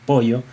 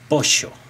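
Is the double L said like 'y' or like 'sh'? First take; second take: y; sh. First: The double L sounds like a 'y'. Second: The double L sounds like 'sh', Argentine style.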